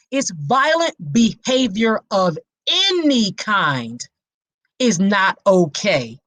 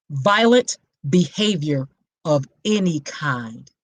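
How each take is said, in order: First: Said in the usual way. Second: Violent behavior of any kind, slow and lower, each word weighed; slow emphatic repeat. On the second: Shown as a demonstration. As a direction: spell out the definition slowly. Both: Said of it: "what did I just say a red flag is".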